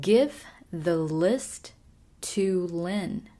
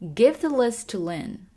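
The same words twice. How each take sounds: First: The sentence is said slowly and carefully. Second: The sentence is said at normal speed.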